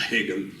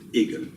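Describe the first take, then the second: First: The name is said the English way, weaker H. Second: The name is said the French way. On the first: "with the H is not as present as in German" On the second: "And in French, we say often Hegel"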